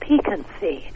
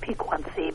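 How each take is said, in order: First: The 'qu' is said as a plain k sound. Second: The 'qu' is said with a kw sound. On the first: The speaker calls it right. "it's piquancy. That's a French Q. So it's pronounced the way we would pronounce a K" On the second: The speaker calls it wrong. "I was always pronouncing it piquancy"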